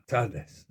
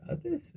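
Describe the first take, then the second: First: Firm retold correction of "tardes"; mimicked correction. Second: High-pitched, baffled "Tardes?"; puzzled echo. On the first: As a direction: state "tardes" as the right word. Mother-in-law corrects his Spanish greeting. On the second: Retold or imitated. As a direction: squeak "Tardes?" back in disbelief. His puzzled echo of the correction.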